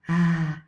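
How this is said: The vowel is breathy with audible air escaping. "a breathy vowel"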